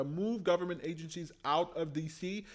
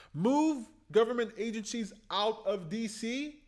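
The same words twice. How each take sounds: First: Said in the usual way. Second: Much higher, louder, marvelling at "Move"; thrilled repetition of the idea; excited. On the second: Real, not acted. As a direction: proclaim it like a revelation. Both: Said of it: "That's fantastic".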